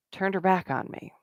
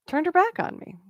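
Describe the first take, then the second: First: Said in the usual way. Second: Pitched much higher in disbelief; incredulous repeat. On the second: Retold or imitated. Retelling being snubbed while networking, repeated in high disbelief. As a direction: echo it again, stunned that anyone would do that.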